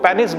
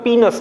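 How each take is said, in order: First: The first vowel sounds like 'eh'. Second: The first vowel sounds like 'ee'. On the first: The speaker calls it wrong. "कई लोग उसको पेनिस बोल देते हैं, गलत है" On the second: The speaker calls it right. "वो पीनस कहलाता है"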